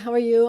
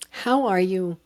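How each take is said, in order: First: It is asked casually, as an automatic greeting. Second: It is asked sincerely, with genuine interest.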